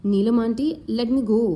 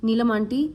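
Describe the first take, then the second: First: Lightly trembling plea; shaky voice. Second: Said in the usual way. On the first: Acted. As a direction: let the voice waver a little. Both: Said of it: "Anjali said in a shaky voice".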